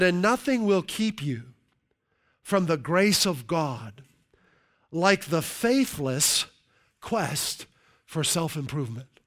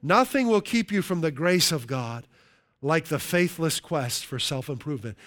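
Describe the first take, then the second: First: Slow, deliberate reading of the quote. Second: Said in the usual way. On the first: Shown as a demonstration. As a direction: read each phrase slowly with pauses. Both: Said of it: "I'll read that again".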